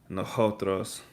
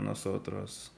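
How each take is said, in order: First: The s is softened to a breathy h. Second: The s is pronounced fully and clearly. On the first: "the way they aspirate" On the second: "instead of"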